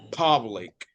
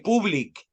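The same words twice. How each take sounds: First: The first vowel sounds like 'o'. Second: The first vowel sounds like 'oo'. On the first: The speaker calls it right. "la U suena como O" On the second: The speaker calls it wrong. "don't say public"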